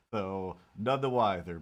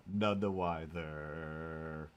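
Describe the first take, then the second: First: Said in the usual way. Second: "None the wiser" stretched slowly, each word drawn out; lingering slow echo. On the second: Pretend. Repeats the phrase slowly.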